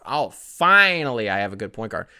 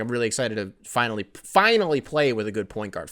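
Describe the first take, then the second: First: Finally leaned on a touch louder as the key word; stress on finally. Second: Said in the usual way. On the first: Retold or imitated. Host mocking Joe Johnson's dig at Teague, weight on finally. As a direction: hit the word finally, mock pointed. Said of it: "Finally was the operative word there". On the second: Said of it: "he's like".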